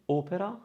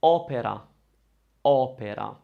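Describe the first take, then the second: First: Opera with a closed O; closed, rounded O starting opera. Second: Opera with an open O; stressed open O starting opera. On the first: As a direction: say opera with a tight, closed first O. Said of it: "to say opera with a closed O". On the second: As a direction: say opera opening up the first vowel. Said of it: "we're going to use the open O". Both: Shown as a demonstration.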